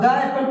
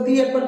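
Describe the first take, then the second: First: The word 'the' is said with a short 'uh'. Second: The word 'the' is said with a long 'ee'. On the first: The speaker calls it wrong. "ये गलत है" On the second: The speaker calls it right. "इसको दी एप्पल पढ़ना होगा"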